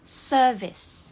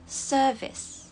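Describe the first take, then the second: First: The r sound is dropped. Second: The r sound is dropped.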